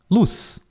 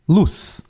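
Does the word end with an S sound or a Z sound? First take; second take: S sound; S sound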